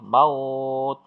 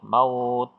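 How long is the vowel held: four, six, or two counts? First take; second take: four; two. First: The vowel is held for four counts. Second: The vowel is held for two counts.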